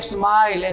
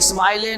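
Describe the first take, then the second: First: The word ends on the consonant l. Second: The word ends with an added 'e' vowel. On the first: The speaker calls it right. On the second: The speaker calls it wrong.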